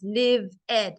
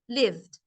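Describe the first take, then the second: First: The ending is said as a separate syllable. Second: The word is said as one syllable. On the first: The speaker calls it wrong. "You cannot make two sounds" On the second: The speaker calls it right. "It's lived"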